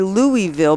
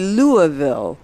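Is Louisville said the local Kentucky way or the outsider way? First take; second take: outsider; local. First: The city name is said the outsider way. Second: The city name is said the local Kentucky way. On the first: This is how a non-local says the name. "I do say Louisville" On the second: This is how a local says the name. "you say Louisville, which I guess is very Kentuckian"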